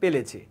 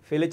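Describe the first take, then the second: First: The word starts with a plain p sound. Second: The word starts with an aspirated p sound. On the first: The speaker calls it wrong. "বলে পেলেছি" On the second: The speaker calls it right. "ফেলেছি এটা বলে"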